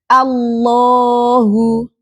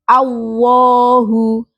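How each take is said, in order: First: The L is a full, thick L. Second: The L sounds like a W glide. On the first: The speaker calls it right. "kita menggunakan ujung lidah ditempelkan di langit-langit" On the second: The speaker calls it wrong. "membaca Allah tidak seperti membaca huruf waw. Allahu. Jangan ya"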